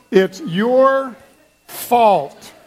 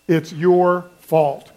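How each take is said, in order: First: Hammed-up blame. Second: "It's your fault" said slowly, at the usual pitch; a slow, light accusation; slow mock blame. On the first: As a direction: point the finger with mock glee. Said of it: "Doesn't that feel good?". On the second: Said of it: "just say this". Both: Shown as a demonstration.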